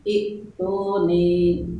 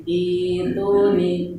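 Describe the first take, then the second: First: "itu nih" drawn out slowly as the form to avoid; slow demo of the wrong "itu nih"; wrong reading. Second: "itu nih" said slowly and carefully as the right form; slow careful demo of the correct "itu nih"; correct reading. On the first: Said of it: "bukan itu nih". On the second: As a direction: model "itu nih" slowly, vowels clear. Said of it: "Bacanya jadi itu nih". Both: Shown as a demonstration.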